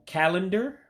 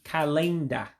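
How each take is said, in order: First: Said in the usual way. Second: "kalenda" as kah-LAYN-dah; Igbo pronunciation. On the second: Shown as a demonstration. Teacher gives Igbo for calendar, stressed middle syllable. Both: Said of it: "to say it in Igbo".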